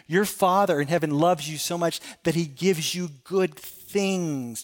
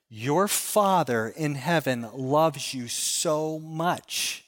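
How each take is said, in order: First: Said in the usual way. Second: Slow and tender. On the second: Acted. Pastor stressing God's love.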